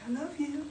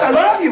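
First: Very soft, perfunctory declaration; passionless. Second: Exasperated, louder insistence; mock frustrated. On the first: Acted. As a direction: say it without any passion, barely audible. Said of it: "You didn't say that with passion". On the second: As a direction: act out a frustrated partner insisting on love. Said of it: "Why are you frustrated?".

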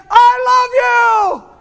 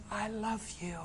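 First: High, drawn-out shout of love; shouted declaration. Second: Very soft, intimate voice; hushed declaration. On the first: Jesus declaring love to us, loud and drawn-out shout. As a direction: belt it out slowly, far above usual pitch. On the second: Jesus telling a believer of his love, hushed. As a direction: let it drop almost to nothing, tenderly. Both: Acted.

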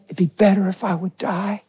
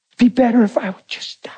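First: Said in the usual way. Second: Voiceless whisper of a wife who wants to give up; whispered despair. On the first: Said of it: "'Cause she kept saying". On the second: Retold or imitated. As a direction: breathe the words out with no voice. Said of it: "That's what she would say".

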